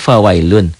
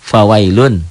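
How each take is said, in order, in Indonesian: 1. Kata ini berakhir dengan bunyi n. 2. Kata ini berakhir dengan bunyi n.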